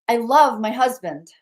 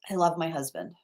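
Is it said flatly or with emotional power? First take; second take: emotional power; flatly. First: It is said with strong emotional power. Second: It is said plainly, without much emotion.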